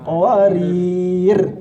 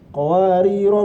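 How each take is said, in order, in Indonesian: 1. Kata ini berakhir dengan konsonan. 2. Kata ini berakhir dengan vokal pendek. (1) "Kalau kita berhenti malah nggak ada alifnya" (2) "Kalau kita terusin pendek"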